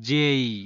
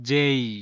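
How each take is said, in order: First: The vowel glides, ending in an ee sound. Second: The same.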